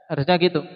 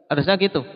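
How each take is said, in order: No difference in how they are said.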